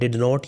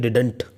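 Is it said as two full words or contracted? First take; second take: two words; contracted. First: It is said as two full words. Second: It is said as one contracted word. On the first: "जब एक साथ use होता है तो ये डिड नॉट होता है" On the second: "लेकिन डिडंट इसे बोलते हैं"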